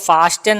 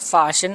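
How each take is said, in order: First: The middle t sound is pronounced. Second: The middle t sound is silent. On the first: The speaker calls it wrong. "దీన్ని ఎక్కువగా ఫాస్టెన్ అంటూ ఉంటారు" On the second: The speaker calls it right. "అలా కాకుండా ఫ్యాషన్ అని పలకాలి"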